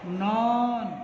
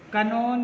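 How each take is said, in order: First: The word starts directly with the n sound. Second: A k sound is heard before the n. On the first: The speaker calls it right. "Please listen. नॉन" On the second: The speaker calls it wrong. "कनॉन नहीं बोलेंगे"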